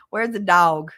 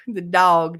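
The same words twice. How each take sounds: First: "dog" in Where's the dog said as tawg, Kansas style; Kansas pronunciation. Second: "dog" drawn out again as tawg, Kansas style; Kansas pronunciation. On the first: Imitating friend Peggy saying "dog" the Kansas way. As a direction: put a Kansas twang on "dog". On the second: Repeating Peggy's Kansas "dog" for the chat. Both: Shown as a demonstration. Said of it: "That's how my friend Peggy say it".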